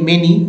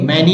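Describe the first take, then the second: First: The first vowel sounds like 'e' in men. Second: The first vowel sounds like 'a' in man. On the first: The speaker calls it right. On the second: The speaker calls it wrong. "मैनी नहीं"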